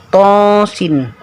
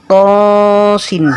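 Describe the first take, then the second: The two takes are said the same way.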